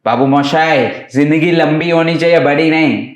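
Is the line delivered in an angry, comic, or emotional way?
angry. The line is delivered in an angry, harsh way. "એક angry ગુસ્સાવાળો"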